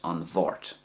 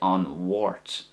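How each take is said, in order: First: The second word begins with a V sound. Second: The second word begins with a W sound. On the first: "the way I say it" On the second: "if you want to pronounce it like a W sound"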